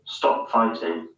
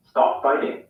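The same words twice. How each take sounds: First: Slow, lower British "Stop fighting"; British hard T in "fighting", drawn out; British accent. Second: American "Stop fighting" with a tapped T in "fighting"; American accent. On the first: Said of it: "In the U K". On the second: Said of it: "In the U S". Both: Shown as a demonstration.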